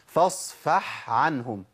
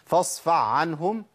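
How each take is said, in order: First: The breathy h stays distinct before the ayn. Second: The breathy h turns into an ayn sound. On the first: The speaker calls it right. "اسمع كده" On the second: The speaker calls it wrong. "أنا كده أبدلت الحق بعين على طول، أضغمت"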